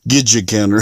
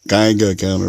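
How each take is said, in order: First: The first word sounds like 'gidget'. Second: The first word sounds like 'Geiger'. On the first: The speaker calls it wrong. "I always pronounced it wrong" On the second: The speaker calls it right. "is what you I'm supposed to be saying"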